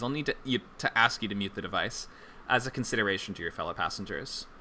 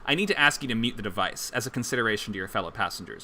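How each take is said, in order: First: It is said in an apologetic tone. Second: It is said in a stern, commanding tone.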